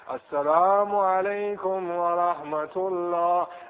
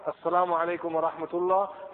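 First: It is long, drawn out and ornamented. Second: It is short, plain and precise. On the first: The reciter is showing off his voice. The speaker calls it wrong. "very, very flashy" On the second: The reciter says it sincerely and simply. The speaker calls it right. "short and precise"

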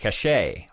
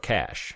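First: It is said in a non-American way. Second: It is said the American way, like cash.

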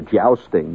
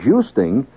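First: The first vowel is the common one. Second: The first vowel is the less common one. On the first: The speaker calls it wrong. "which most people call it" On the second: The speaker calls it right. "that is the correct pronunciation"

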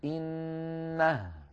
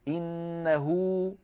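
First: The word ends on a silent h with no vowel. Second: The final h is followed by a long u vowel. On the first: The reader stops after this word. "أما إذا وقفنا فنقف بالهاء الساكنة" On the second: The word is joined to the following word. "فينطقون واو"

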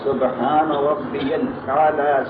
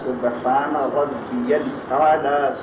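No difference in how they are said.

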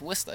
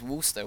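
First: The first syllable sounds like 'wiss'. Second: The first syllable sounds like 'woo'. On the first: This is how locals say the name today. The speaker calls it right. "But today it's Worcester. It's W-I-S-T-A" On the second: This is an older or outsider way of saying the name. The speaker calls it wrong. "the accent was Worcester with a, you know, W-O-O"

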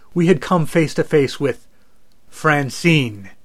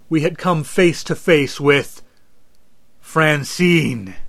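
First: The line is delivered with less dramatic tension. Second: The line is delivered with more dramatic tension. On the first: The speaker calls it wrong. "I wish there was some way I could express the danger we were in" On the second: The speaker calls it right. "Wait, even better. Let me try it again"

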